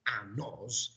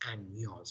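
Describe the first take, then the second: First: The middle consonant is a plain n sound. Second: The middle consonant is a palatal ny sound. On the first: The speaker calls it wrong. "this is not años" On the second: The speaker calls it right. "it's años"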